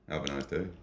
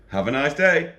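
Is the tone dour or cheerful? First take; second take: dour; cheerful. First: It is said in a flat, dour tone. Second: It is said in a cheerful, lively tone.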